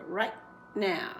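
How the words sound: There is a short break between the two words. The speaker calls it right. "don't forget to break right there"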